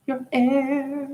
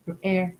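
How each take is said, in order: First: Squeaky high falsetto repeat. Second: Said in the usual way. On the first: Shown as a demonstration. Repeating the word in a high falsetto. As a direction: lift it way up into falsetto.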